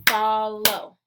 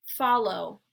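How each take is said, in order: First: "Follow" stretched into two loud, level beats; syllable by syllable. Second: Said in the usual way. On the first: Shown as a demonstration. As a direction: clap out both syllables of "Follow". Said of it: "clap the syllables out". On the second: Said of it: "I'll say the word".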